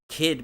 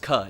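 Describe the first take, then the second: First: The vowel is a clear short 'ih' sound. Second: The vowel is a central 'uh' sound.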